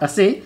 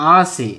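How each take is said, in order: First: The first vowel is short. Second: The first vowel is long. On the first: The speaker calls it wrong. "This ಇಸ್ not ಅಸೆ" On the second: The speaker calls it right. "This ಈಸ್ ಆಸೆ"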